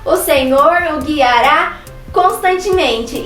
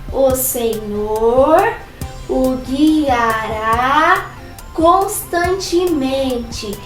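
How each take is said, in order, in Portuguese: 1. É dito muito alto e rápido. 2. É dito muito baixinho. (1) "bem alto e bem rápido" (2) "bem baixinho"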